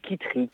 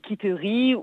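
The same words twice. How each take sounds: First: The name is said quickly with syllables run together. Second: Every syllable of the name is fully pronounced. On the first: "ou de manière plus rapide" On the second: "comme on le prononce souvent dans le sud-ouest, en prononçant chaque syllabe"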